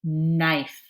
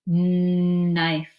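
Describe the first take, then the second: First: Said in the usual way. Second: "knife" with a long, loud held N; stretched sound. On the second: Shown as a demonstration. Teacher asking what begins the word, "knife" with a stretched N. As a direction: hold the opening N of "knife". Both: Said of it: "let's stretch out the word".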